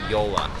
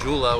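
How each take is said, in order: First: It begins with a Y sound. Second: It begins with a J sound and an OO vowel. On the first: The speaker calls it right. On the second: The speaker calls it wrong.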